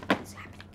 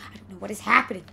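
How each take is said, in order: First: Whisper. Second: Said in the usual way. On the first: Real, not acted. Whispered then repeated aloud.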